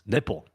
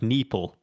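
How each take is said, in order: First: The vowel is said the English way. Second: The vowel is said the non-English way. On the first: This is how English speakers read the name. "in English it's nipple" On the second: This is how the name is said in its home language. "the I isn't pronounced the same"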